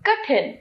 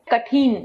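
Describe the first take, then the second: First: Short इ after ठ in कठिन; correct कठिन. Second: Long ई after ठ in कठिन; mispronounced कठिन. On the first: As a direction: say कठिन with a brief "thin". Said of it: "इसका शुद्ध है". (कठिन का शुद्ध उच्चारण, छोटी इ से) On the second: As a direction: say कठिन as "ka-theen". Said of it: "अशुद्ध". (कठिन का अशुद्ध उच्चारण, "कठीन") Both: Shown as a demonstration.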